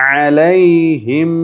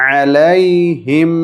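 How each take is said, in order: Both takes have the same delivery.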